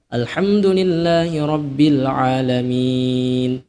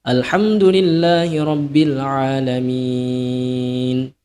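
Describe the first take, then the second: First: The final vowel is held moderately long. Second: The final vowel is held very long. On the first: "Empat harokat" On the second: "enam harokat"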